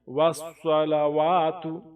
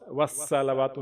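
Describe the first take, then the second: First: The s sound is thick and heavy. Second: The s sound is thin and light. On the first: The speaker calls it right. "स्वाद को जो है एक सीन के मुकाबले में थोड़ी सी मोटी पढ़ें।" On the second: The speaker calls it wrong. "वस्सलावातु नहीं"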